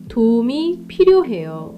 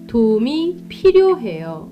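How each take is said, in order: The two takes are said the same way.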